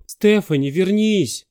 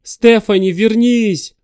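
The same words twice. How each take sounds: First: Raised high call after her; shouting. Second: Desperate high shout after her. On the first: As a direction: call her back, less force. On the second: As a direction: yell her name into the dark. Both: Acted. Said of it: "закричал он".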